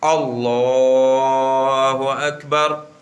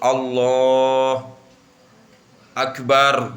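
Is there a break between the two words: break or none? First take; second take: none; break. First: The two words run together without a break. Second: There is a break between the two words. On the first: The speaker calls it right. "nggak boleh kita berhenti atau diputus" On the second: The speaker calls it wrong. "nggak boleh itu"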